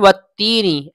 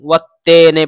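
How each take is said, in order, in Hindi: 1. यह स्वर साफ़ 'ee' जैसा सुनाई देता है। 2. यह स्वर मध्य 'e' जैसा सुनाई देता है। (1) "तो ये है वत्तीनी" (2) "वत्तीने को मजहूल पढ़ते हैं"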